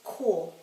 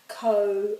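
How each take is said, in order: First: The vowel is said the Māori way. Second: The vowel is said the English way. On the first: The speaker calls it right. "And this is ko. It's always ko" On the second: The speaker calls it wrong. "some people say ko"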